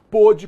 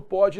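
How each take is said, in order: First: "pôde" with a closed o, like pô. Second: "pode" with an open o, like pó. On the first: Teacher shows students pôde with closed timbre. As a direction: close the o of "pôde", rounder and tighter. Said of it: "pôde com timbre fechado". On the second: Teacher shows students pode with open timbre. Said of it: "com timbre aberto". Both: Shown as a demonstration.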